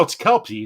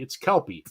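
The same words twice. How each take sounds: First: Kelpsy with an S after the P, KELP-see; Kelpsy said firmly with the P-S cluster; corrected pronunciation. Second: Kelpie with no S, KELP-ee; corrected pronunciation. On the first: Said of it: "It's not Kelpsy". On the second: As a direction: settle on Kelpie, simply KELP-ee. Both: Real, not acted.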